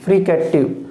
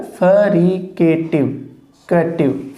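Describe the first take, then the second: First: Said in the usual way. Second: fricative drawn out slowly, sound by sound; teacher slowly modelling fricative; slow spelled-out demo. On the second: Shown as a demonstration. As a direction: stretch fricative out for the class. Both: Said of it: "phonetic symbol है".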